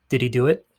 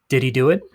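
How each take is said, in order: The two takes are said the same way.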